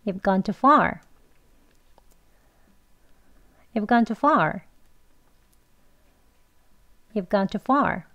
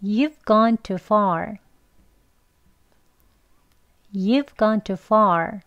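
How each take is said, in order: First: Fast, linked words with reduced you've; quick version. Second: Slow, evenly spaced words; slow practice. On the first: Teacher repeats the practice sentence, quick and linked. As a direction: run it together at conversational speed. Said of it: "리도 두 번 해보겠습니다". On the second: Teacher leads learners in practice, slow and careful. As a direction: model it slowly for repeating along. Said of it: "같이 해볼게요". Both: Shown as a demonstration.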